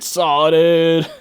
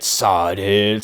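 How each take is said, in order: First: "Sawdid" higher, vowel shifted to aw-ah; rising second try at "Sawdid"; testing "Sawdid" a bit higher and louder; second pronunciation try. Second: "Sawdid" low and tentative, stress on first syllable; first try at "Sawdid", said low; trying out "Sawdid" lower; name pronunciation attempt. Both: Shown as a demonstration. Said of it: "I don't know how to actually say it".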